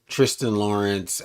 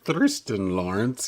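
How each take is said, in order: First: The name begins with a plain t sound. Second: The name begins with a th sound. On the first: "when they call him Tristan" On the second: "because it's T H R, I think about Thriston"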